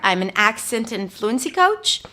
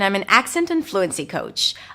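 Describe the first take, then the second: First: The pitch rises at the end of the sentence. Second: The pitch rises then falls at the sentence end. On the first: The speaker seems uncertain and less confident. The speaker calls it wrong. "I'm going to use the upspeak, rising intonation at the end of sentences" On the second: The speaker seems certain and confident. The speaker calls it right. "I'm going to use rising, falling intonation at the end"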